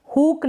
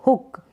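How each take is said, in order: First: हुक with a long drawn-out oo; wrong long vowel. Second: हुक with a short, quick u; correct short vowel. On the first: Teacher showing learners the wrong reading, long vowel. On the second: Teacher correcting to the right reading, short vowel. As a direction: keep the oo in हुक brief. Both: Shown as a demonstration. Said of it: "हुक नहीं".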